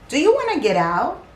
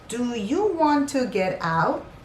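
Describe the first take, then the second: First: It is said fast. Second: It is said slowly.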